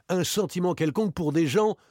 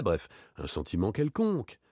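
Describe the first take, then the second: First: Higher, rising at the end; insistent challenge. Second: Casual approximation, falling away at the end; offhand. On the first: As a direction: throw the words back as a challenge. Other party throws the words back. (insistant, sur un ton de reproche) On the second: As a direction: toss it off as unimportant. Offhand phrase, then thrown back. (désinvolte) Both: Acted.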